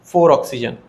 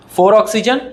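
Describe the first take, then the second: First: four oxygen lower, fall from four; falling confirmation. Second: four oxygen with a rise on oxygen; checking tune rising; rising count. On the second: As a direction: ask it with a lift on oxygen. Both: Shown as a demonstration. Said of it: "सभी लोग ध्यान से देखो".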